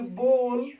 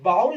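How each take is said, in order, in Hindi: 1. स्वर एक सादा लंबा 'oh' जैसा सुनाई देता है। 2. स्वर 'cow' में 'ow' जैसा सुनाई देता है। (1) "इसको पढ़ना है आपको बोल" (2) "बहुत सारे टीचर बाउल करके पढ़ाते हैं ... गलत पढ़ाते हैं"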